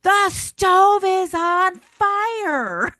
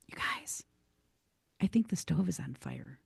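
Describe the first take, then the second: First: High, loud, drawn-out alarm; slow and loud, finally getting heard; finally yelling. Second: Whispered, barely audible warning; a shy friend whispers so no one hears; timid whisper. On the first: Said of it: "finally she just goes". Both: Retold or imitated.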